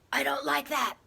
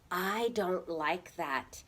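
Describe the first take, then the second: First: The voice is harsh and angry. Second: The voice is calm, firm and respectful. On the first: The speaker calls it wrong. "should we use an angry voice?" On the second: The speaker calls it right. "in a strong, respectful voice"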